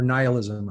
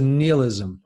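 First: "nihilism" starting NIGH, as NIGH-uh-lizm; English pronunciation. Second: "nihilism" starting NEE, as NEE-uh-lizm; French-influenced pronunciation. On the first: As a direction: say "nihilism" with a long i, like eye. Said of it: "how to call it". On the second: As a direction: say "nihilism" with an ee in the first syllable. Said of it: "in France we say nihilism". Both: Shown as a demonstration.

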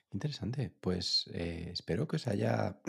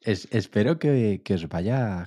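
First: Hoarse, failing voice; voice giving out. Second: Louder restart, forcing the voice; clearing the throat and pushing on; pushing through a failing voice. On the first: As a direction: voice cracking and fading. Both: Real, not acted. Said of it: "perdón, que no tengo voz".

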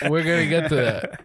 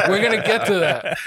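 First: Said in the usual way. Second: Laughing through the words; real laughter breaking into the line. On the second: Real, not acted. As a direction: still cracking up as you say it. Host laughs at pandemic question.

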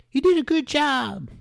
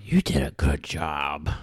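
First: High put-on voice for the quote; squeaky high impression of the director; mock Tim Burton quote. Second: Slow, low put-on voice; mock Tim Burton quote. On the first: Host quoting Burton in a high put-on voice. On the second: Host repeating the Burton quote low and slow.

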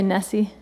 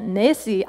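First: Said in the usual way. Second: Nessie with a light Scottish lilt, Nessie said as nee-see; a playful hint of a Scottish accent on Nessie; little Scottish accent. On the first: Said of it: "Can y'all say Nessie?". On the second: Shown as a demonstration. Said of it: "say it with, like, a little Scottish accent".

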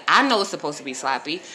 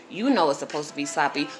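First: I punched, pitch rising at the end; stress on I. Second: You punched, rest dropping softer; stress on you. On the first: To her listeners, lean on the word I. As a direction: lean on the word I, then let the line rise. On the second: Turning it to the listeners, stress on you. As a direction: hit the word You and let the rest fall. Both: Shown as a demonstration.

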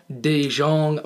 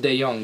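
First: "DeJong" said like the mustard Dijon, dee-ZHON; mustard pun pronunciation. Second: "De Jong" said de-YONG, the correct Dutch way; correct pronunciation. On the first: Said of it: "said DeJong for the, for the mustard reference". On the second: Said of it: "It's actually pronounced De Jong". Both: Shown as a demonstration.

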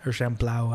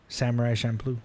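First: "Champloo" said champ-LOW, ending in ow; "Champloo" ending rhymed with cow. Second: "Champloo" said champ-LOO, ending in oo; "Champloo" rhymed with shampoo. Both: Shown as a demonstration. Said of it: "Or Champloo, I don't know".

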